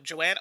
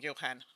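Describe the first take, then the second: First: The name is said with no middle h sound. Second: The name is said with a middle h sound. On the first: The speaker calls it wrong. "when I first read it, I'm like, Joanne" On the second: The speaker calls it right. "no, Johan"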